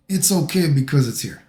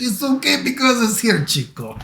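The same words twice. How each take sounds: First: Said in the usual way. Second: High, hammed-up Spanish accent. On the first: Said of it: "I make him sound like he's Spanish". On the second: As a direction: exaggerate a mock Spanish accent. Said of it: "make him sound like he's Spanish".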